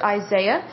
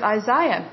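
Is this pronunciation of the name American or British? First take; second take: American; British. First: The name is said the American way. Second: The name is said the British way. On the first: "Here in the States, we pronounce it Isaiah" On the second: "over in the UK and in India, they pronounce it Isaiah"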